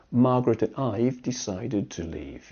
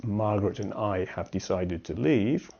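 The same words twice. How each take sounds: First: "I've" said as one syllable ending in v; contracted I've. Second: "I have" said as two full words; uncontracted I have. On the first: Teacher showing what we would probably say, contracted "I've". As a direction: run "I've" together, no separate have. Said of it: "we would probably say". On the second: Teacher reading what you write, full "I have". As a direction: give "have" its whole sound after "I". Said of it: "So if you write". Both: Shown as a demonstration.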